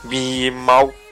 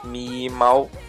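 First: It is said in Chongqing dialect. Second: It is said in Chongqing dialect.

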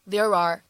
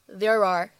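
Both takes have the same delivery.

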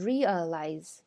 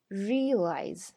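First: Every syllable is fully pronounced. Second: A middle syllable is dropped. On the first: The speaker calls it wrong. "而不是realize" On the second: The speaker calls it right. "而不是"

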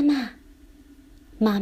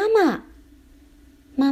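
First: It is called softly. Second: It is called loudly.

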